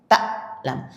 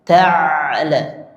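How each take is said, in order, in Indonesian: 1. Bunyi di tengah terhenti mendadak. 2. Bunyi di tengah mengalir sebentar. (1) "Kalau hamzah dia langsung berhenti bunyinya" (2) "kalau ain itu dialirkan bunyinya, dialirkan sedikit"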